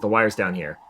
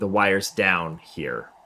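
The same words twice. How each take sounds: First: The stress falls on the word here. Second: The stress falls on the word down. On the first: The wire is located over here. The speaker calls it wrong. "He says the wire's down here" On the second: This is where the wire has fallen down. The speaker calls it right. "as opposed to saying the wire's down here"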